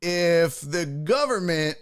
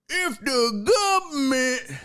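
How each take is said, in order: First: Said in the usual way. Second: High, hammed-up folksy drawl on "government"; exaggerated drawled "gubmint". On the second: Host clowning about the government, high exaggerated folksy drawl. Exaggerated repeat of same words.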